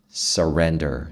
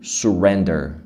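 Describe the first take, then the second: First: The first syllable is said with an a vowel. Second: The first syllable is said with a u vowel. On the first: The speaker calls it right. "Não é su, é sa" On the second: The speaker calls it wrong. "Você não vai falar su"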